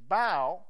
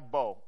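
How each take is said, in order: First: The vowel sounds like the one in 'cow'. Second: The vowel sounds like the one in 'go'. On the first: It means to bend down in respect. "bow down to thee" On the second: It names a weapon. "it's used to describe a weapon"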